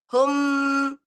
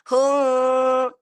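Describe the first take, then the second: First: The final m is pressed hard without full nasal hum. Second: The final m is held with a full nasal hum. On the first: The speaker calls it wrong. "Kurang sempurna ya" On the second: The speaker calls it right. "harusnya hum"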